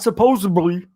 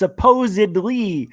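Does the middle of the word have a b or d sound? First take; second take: b sound; d sound. First: The middle of the word has a b sound. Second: The middle of the word has a d sound. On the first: The speaker calls it wrong. "not supposedly" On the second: The speaker calls it right. "There's no B. It's supposedly"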